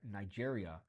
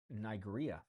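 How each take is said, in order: First: The G is pronounced soft, like a J. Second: The G is pronounced hard, like in go. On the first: The speaker calls it right. "So I wouldn't say uh" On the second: The speaker calls it wrong. "I used to pronounce Nigeria incorrectly, um, with a hard G"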